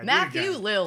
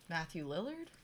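First: The name is said firmly and confidently. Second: The name is said hesitantly, like a question. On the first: The speaker is sure of the name. The speaker calls it right. "Say it with confidence" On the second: The speaker is not sure of the name. The speaker calls it wrong. "that's his name?"

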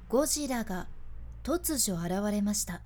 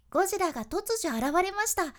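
First: The voice is low, slow and serious. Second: The voice is high, bouncy and rhythmic. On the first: It sounds like an emergency. "低いトーンでゆっくりお伝えした" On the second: It sounds like a playful character show. "高いトーンでリズミカルにお伝えしたバージョンです"

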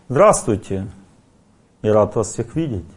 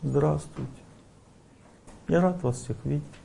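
First: It is said proudly, in a defensive manner. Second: It is said weakly, without strength.

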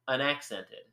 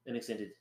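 First: It is said in a plain, ordinary way. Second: It is said the way French speakers would.

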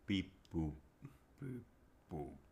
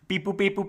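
First: It is said at a slower pace. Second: It is said at a faster pace.

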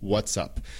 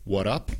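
First: Both words are said fully, with the s. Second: The s sound is dropped from the first word. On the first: "It's what's up" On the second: "A veces lo decimos como"

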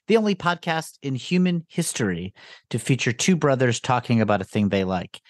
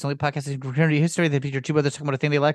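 First: It is said at a normal pace. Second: It is said very fast.

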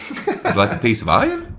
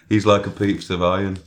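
First: It is said in an Australian accent. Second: It is said in a plain voice, no accent. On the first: "You could do an Australian accent" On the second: "Just don't do an accent"

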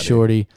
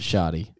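First: The word is said with an r sound. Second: The word is said without an r sound. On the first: This is what the word really is. The speaker calls it right. "It's shorty" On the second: This is how the singer says it. The speaker calls it wrong. "He pronounces it shoddy"

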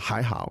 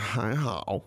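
First: It is said in a plain, neutral way. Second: It is said surly, with more drama. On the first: Things went about okay. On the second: The speaker is grudging and moody about it.

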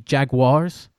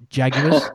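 First: The word is pronounced the American way. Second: The word is pronounced the English way. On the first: The speaker calls it right. "they're the Jaguars" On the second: The speaker calls it wrong. "not Jaguars"

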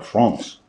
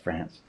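First: It is pronounced with a French accent. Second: It is pronounced with an English accent.

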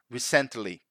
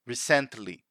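First: The stress falls on the second syllable. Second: The same.

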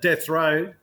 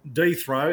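First: The first word has a short 'eh' vowel. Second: The first word has a long 'ee' vowel.

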